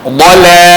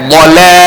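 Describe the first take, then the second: The two takes are said the same way.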